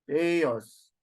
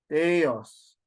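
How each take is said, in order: No difference in how they are said.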